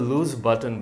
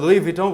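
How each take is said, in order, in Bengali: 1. এটা 'looz' দিয়ে শুরু, তারপর 'b' এর আওয়াজ। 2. এটা 'loo-ee' দিয়ে শুরু, তারপর 'v' এর আওয়াজ। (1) "আমরা লুজ বাটন বলবো" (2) "সো আমরা লুই ভিটন বলবো না"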